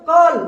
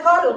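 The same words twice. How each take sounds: First: "कॉल" loud, with a long rounded "aw"; correct pronunciation. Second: "कल" with an "a" vowel in place of "aw"; wrong pronunciation. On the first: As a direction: model "कॉल" firmly as "kawl". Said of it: "पढ़ते हैं ना sir?". ("कॉल" का सही उच्चारण, लंबा ऑ) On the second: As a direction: mispronounce "call" as "कल", no rounded vowel. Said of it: "नहीं पढ़ना है आपको". ("कल" जैसा गलत उच्चारण, बिना ऑ के) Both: Shown as a demonstration.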